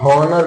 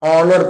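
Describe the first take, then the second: First: The word begins with an audible h sound. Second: The word begins with a vowel, no h. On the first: The speaker calls it wrong. "हॉनर नहीं पढ़ा जाता।" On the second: The speaker calls it right. "ऑनर में एच silent है, ऑनर पढ़ा जाता है"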